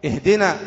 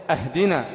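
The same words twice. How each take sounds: First: "اهدنا" with a plain connecting i; correct ihdina. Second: "أهدنا" opened with a hamza a; wrong ahdina. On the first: Teacher modelling the correct reading, "اهدنا" as ihdina. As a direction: start "اهدنا" with ih. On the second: Teacher showing the error, "أهدنا" as in giving a gift. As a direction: start "أهدنا" with a hard ah. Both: Shown as a demonstration. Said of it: "تفتح ألف الوصل".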